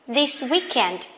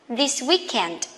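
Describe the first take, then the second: The two takes are said the same way.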